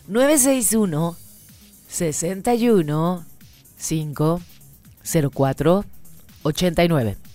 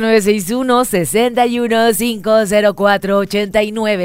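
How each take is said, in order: First: The number is read at a slower pace. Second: The number is read at a faster pace.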